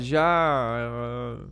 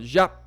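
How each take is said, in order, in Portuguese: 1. A palavra é dita de forma neutra, sem elevar a voz. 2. A palavra é dita em voz alta, com uma batida forte. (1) "Você não fala já" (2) "É como se você subisse a voz e batesse"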